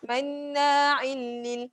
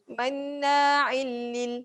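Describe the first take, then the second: Both takes have the same delivery.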